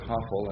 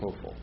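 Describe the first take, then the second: First: The first vowel is an open 'ah' sound. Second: The first vowel is a rounded 'oh' sound. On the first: The speaker calls it wrong. "I learned it Hafal, and that's really not how it's pronounced" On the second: The speaker calls it right. "It's Hofal"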